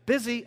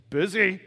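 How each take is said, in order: First: A higher, louder quick brush-off; snappy reply. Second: A clipped, louder one-word brush-off; curt reply. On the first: Friend asked about last night, snapping back a higher brush-off. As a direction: fire it back automatically. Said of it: "How was last night?". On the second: Churchgoer answering about the weekend with a curt loud brush-off. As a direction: toss it off like it's obvious. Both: Retold or imitated.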